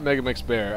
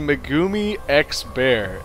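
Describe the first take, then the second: First: The name is run together as 'Megamix Bear'. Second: The name is split as 'Megumi X Bear'. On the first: The speaker calls it wrong. "I've been saying it wrong this entire time" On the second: The speaker calls it right. "it is actually Megumi X Bear"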